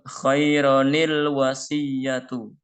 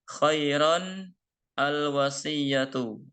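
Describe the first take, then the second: First: An added 'ni' sound links into the second word. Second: The nunation ends the first word with no linking. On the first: "dibacanya menjadi khaironil" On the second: "Saya ulang lagi"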